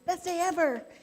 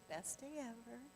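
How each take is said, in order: First: It is said with lively, high energy. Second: It is said with sleepy, low energy.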